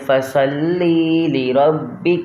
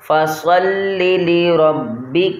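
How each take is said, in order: First: The vowel after the first 'l' is drawn out. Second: The second 'l' follows the first at once. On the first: The speaker calls it wrong. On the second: The speaker calls it right.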